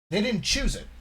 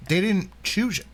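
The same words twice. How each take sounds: First: Said in the usual way. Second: Talking around an ice cube; ice in mouth. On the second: Real, not acted. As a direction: speak with ice in your mouth. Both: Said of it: "sorry, I got ice in my mouth".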